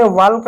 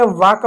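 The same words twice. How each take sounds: First: वाल्क with the l sounded, "vaalka"; wrong pronunciation. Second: वाक said as "vaak", l silent; correct pronunciation. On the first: Teacher shows students the wrong वाल्क with a spoken l. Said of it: "वाल्क नहीं पढ़ा". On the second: Teacher shows students the right form: वाक without the l. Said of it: "आपने वाक पढ़ा". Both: Shown as a demonstration.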